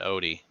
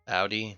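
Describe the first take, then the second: First: The first vowel does not sound like 'ow'. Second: The first vowel sounds like 'ow'. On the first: The speaker calls it wrong. "not Odie" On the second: The speaker calls it right. "So it's Audi, like ow"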